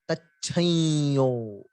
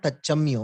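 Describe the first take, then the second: First: A nasalized double y follows the first syllable. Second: An m sound follows the first syllable. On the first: The speaker calls it right. "We give a nasal and a double Ya" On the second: The speaker calls it wrong. "It is not Tachamyo"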